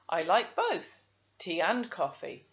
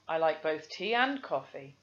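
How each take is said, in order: First: There is a pause after "both". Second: There is no pause after "both". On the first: The speaker calls it wrong. "I can hear the comma" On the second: The speaker calls it right. "there's no pause after the both"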